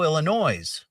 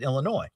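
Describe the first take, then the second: First: The word ends with an audible S sound. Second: The word ends without any S sound. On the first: The speaker calls it wrong. "I put an S at the end of Illinois" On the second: The speaker calls it right. "that's the correct way to pronounce it"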